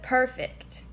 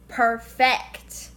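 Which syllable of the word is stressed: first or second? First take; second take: first; second. First: The stress is on the first syllable. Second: The stress is on the second syllable. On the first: "instead of perfect" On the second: "if you switch the stresses around, it would be perfect"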